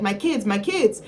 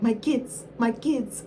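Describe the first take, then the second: First: Put-on a slight singer's lilt on "My kids, my kids"; sounding like a singer. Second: A mild mock of a singer on "My kids, my kids"; mocking a singer. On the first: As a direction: lightly slip into the singer's voice for the frantic mother. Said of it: "why did I sound like Amara La Negra?". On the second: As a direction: copy the reviewer mocking the singer. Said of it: "and she'd be like".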